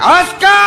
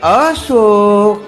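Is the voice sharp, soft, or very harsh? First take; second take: very harsh; soft. First: The name is barked out in a very harsh voice. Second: The name is said in a soft, tender voice. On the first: After many years she is frightening. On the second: She is newly married and affectionate.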